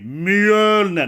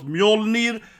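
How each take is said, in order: First: The first vowel is a rounded Swedish ö. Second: The first vowel is a plain English o. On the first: The speaker calls it right. "Say it with me" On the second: The speaker calls it wrong. "Not Mjolnir"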